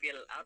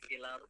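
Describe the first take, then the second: First: A glottal stop separates the two words. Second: The glottal stop drops and the words merge.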